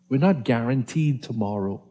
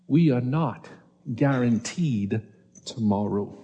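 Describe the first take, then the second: First: It is said at a normal pace. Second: It is said a little more slowly.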